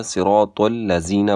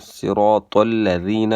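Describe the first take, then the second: First: الذین as buzzing "lazeena"; sharp z in place of dh in الذین; mistaken z for dhal. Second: الذین with soft "dh", tongue between teeth; gentle lisped th-sound in الذین; correct soft dhal. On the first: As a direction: say صراط الذین as "siraatol-lazeena". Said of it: "کے بجائے ... پڑھتے". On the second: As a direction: say صراط الذین as "siraatol-ladheena". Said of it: "ذال کو زا پڑھتے ہیں". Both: Shown as a demonstration.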